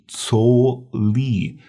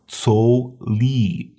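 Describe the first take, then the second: First: The first word begins with a ts sound. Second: The first word begins with a ts sound.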